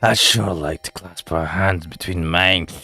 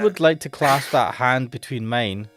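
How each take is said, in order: First: It is said in a put-on creepy voice. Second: It is said in his normal voice.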